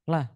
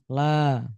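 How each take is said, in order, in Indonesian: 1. Vokalnya diucapkan pendek dan terpotong. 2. Vokalnya diucapkan panjang dan ditarik. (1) "orang baca la tetapi dibaca pendek" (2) "Harusnya panjang"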